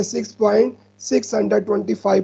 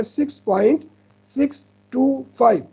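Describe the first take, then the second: First: "six point six hundred twenty five" with the digits after the point read as one number, "six hundred twenty five"; common wrong reading. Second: "six point six two five" with every digit after the point said one by one, "six, two, five"; correct digit reading. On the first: Teacher shows students how "six hundred twenty five" gets wrongly read as one whole number. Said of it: "sometime इसको इस तरह पढ़ते हैं". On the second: Teacher shows students the right way, each digit after the point said separately as "six two five". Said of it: "बल्कि पढ़ेंगे".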